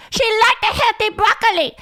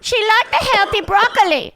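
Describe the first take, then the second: First: Same high mock Asian accent, repeated with "liked" stressed; mock Asian accent, high-pitched repeat; imitating Asian mom. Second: High mock Asian accent, "broccoli" said as "pɹɑkəli" with a p; mock Asian accent, high-pitched; imitating Asian mom. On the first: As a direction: nag again about the broccoli, insisting. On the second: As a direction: nag about the healthy broccoli in the high accent voice. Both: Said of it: "would do this bit about how her mom".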